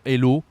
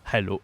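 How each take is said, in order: First: "hello" without the h, French style; French pronunciation. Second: Hello with the English h; plain English pronunciation. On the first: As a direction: drop the h and say "hello" as "ello". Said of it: "hello in French". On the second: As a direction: say "hello" with a breathed English h at the start. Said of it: "the English way to say". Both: Shown as a demonstration.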